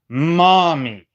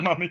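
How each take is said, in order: First: The first vowel sounds like in 'mom'. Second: The first vowel sounds like in 'mum'. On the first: The speaker calls it right. "It's mommy, not mummy" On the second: The speaker calls it wrong. "Can you just say mom instead of mummy?"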